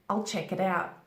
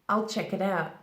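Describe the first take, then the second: Both takes have the same delivery.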